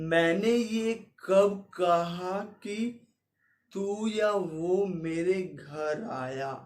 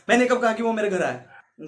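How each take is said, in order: First: The sentence is spoken slowly and drawn out. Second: The sentence is spoken quickly and hurried. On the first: "slow mo में करूं" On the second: "पंद्रह पे कर दूंगा, तो मैं तेईस बोल दूंगा"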